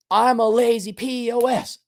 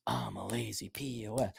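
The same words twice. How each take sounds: First: Chanted, high, insistent leader's line; chanted, lead the repeat in a high, pressing voice; emphatic chant. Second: Very soft, low repeat; meek echo. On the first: Shown as a demonstration. Leading the mirror chant. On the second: Acted. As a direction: mumble it back quietly and low.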